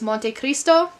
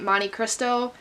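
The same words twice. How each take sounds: First: The name is said with an Italian accent. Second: The name is said with an American accent.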